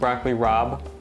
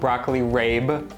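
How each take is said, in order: First: The last word sounds like 'rob'. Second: The last word rhymes with 'babe'. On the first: "It is definitely pronounced broccoli rob" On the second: "not broccoli rabe"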